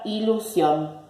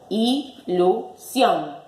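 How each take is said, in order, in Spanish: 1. Se dice de corrido, de una sola vez. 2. Se divide en sílabas separadas.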